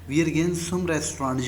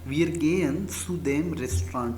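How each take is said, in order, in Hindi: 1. "Zu dem" छोटा होकर एक शब्द बन जाता है, "zum"। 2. "Zu dem" दो पूरे शब्दों की तरह बोला जाता है।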